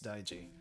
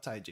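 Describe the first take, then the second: First: The word begins with a voiced d sound. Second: The word begins with a voiceless t sound. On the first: The speaker calls it right. "It's Daiji" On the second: The speaker calls it wrong. "It is not Taiji"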